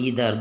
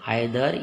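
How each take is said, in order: First: The word begins with an 'ee' sound. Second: The word begins with an 'eye' sound. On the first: "आइदर या ईदर दोनों उच्चारण कर सकते हैं" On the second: "आइदर या ईदर दोनों उच्चारण कर सकते हैं"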